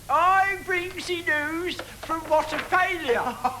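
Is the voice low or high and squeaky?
low. The voice is lower and not squeaky.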